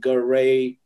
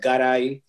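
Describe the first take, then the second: First: The name is said with English sounds. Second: The name is said with Spanish sounds. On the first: "That's why you say Garay" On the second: "it's pronounced Garay properly in our language"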